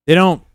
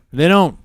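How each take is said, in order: Both takes have the same delivery.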